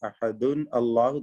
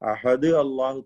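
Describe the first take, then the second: First: Ahad ends in -un, then Allahu starts with a. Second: Ahad ends on d, then Allahu starts with a. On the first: "തെറ്റാണ്" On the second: "തെറ്റാണ്"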